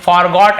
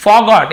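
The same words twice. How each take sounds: First: Forgot with the R pronounced, 'for-got'; R sounded. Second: Forgot said 'faw-got', R dropped; silent R. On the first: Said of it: "ऐसे नहीं बोलते". (forgot में र साफ़ बोलते हुए) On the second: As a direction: say forgot without sounding the R. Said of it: "आर थोड़ा silent होता है". (forgot में र silent) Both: Shown as a demonstration.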